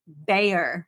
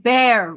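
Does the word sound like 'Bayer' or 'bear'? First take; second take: Bayer; bear. First: It has a y glide, like 'bay-er'. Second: It sounds like the animal name, one syllable. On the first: "I'm saying bear with a Y" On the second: "You're saying bear, rawr"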